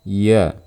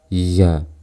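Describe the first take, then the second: First: No breath is audible along with the voice. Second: The breath is audible along with the voice. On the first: The speaker calls it right. "jangan terdengar suara nafas. Seperti ini" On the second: The speaker calls it wrong. "Jangan seperti ini"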